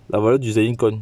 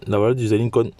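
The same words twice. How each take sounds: The two takes are said the same way.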